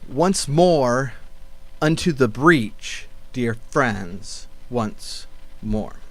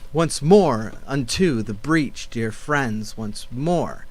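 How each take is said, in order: First: The second syllable of 'unto' is unstressed. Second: The second syllable of 'unto' is stressed. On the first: The speaker calls it right. "we're passing over it as an unstressed syllable" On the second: The speaker calls it wrong. "this is what it sounds like with the rhythm"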